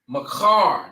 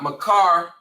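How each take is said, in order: First: The middle consonant is a rasping kh sound. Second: The middle consonant is a plain k sound. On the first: The speaker calls it right. "but the Khar" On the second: The speaker calls it wrong. "not Makar with the the K A R"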